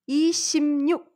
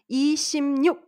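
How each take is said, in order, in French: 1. La consonne du milieu devient un son m. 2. La consonne du milieu devient un son m.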